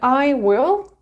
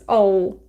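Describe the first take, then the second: First: It is said as two full words. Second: It is said as one contracted syllable.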